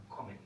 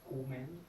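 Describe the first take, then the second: First: "comen" with a short, open o; short-vowel pronunciation. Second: "comen" with a long, closed o; long-vowel mispronunciation. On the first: Teacher correcting kommen for students, short-vowel pronunciation. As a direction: cut the first vowel of "comen" short before the M. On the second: Teacher showing class the wrong kommen, long-vowel mispronunciation. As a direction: stretch the first vowel of "comen", as if one M. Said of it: "Y no decimos comen". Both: Shown as a demonstration.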